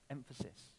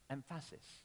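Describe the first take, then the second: First: The stress falls on its usual syllable. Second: The stress is shifted to another syllable. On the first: "You can even play with that word" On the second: "If I just change the emphasis on the word emphasis, I can make it into it sound like an entirely different word"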